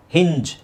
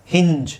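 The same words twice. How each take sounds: The two takes are said the same way.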